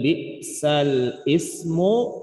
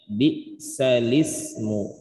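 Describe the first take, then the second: First: The L is separated from the following 'ismu'. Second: The L is joined directly to 'ismu'. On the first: The speaker calls it wrong. "bukan lagi dibaca dengan bi'sal ismu" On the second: The speaker calls it right. "tetapi dibaca dengan bi'salismu"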